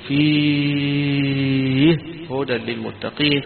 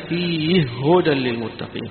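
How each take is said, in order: First: The vowel in the first word is held long. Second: The vowel in the first word is held briefly. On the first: "والمد" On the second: "بالقصر"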